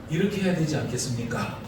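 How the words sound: The pitch falls at the end of the sentence. It does not sound like scolding the listeners. The speaker calls it right.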